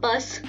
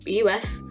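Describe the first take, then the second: First: It is said as one word, rhyming with us. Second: It is said as three separate letters. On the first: The speaker calls it wrong. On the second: The speaker calls it right.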